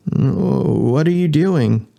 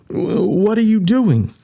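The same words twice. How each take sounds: First: Slow question. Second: Stammered question. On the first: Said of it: "Jason asked". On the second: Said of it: "Pendle asked". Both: Acted.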